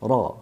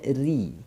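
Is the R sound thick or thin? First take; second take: thick; thin. First: The R sound is thick and fills the mouth. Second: The R sound is thin and light. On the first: "Sekira-kira bunyi ra itu memenuhi rongga" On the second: "kalau tipisnya"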